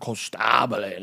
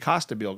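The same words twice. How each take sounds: First: The name is pronounced with Italian sounds. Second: The name is pronounced with American English sounds. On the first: The speaker now uses the family's original-language form. "I went to Italy" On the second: This is how the family has said it for generations. "all my family says it that way"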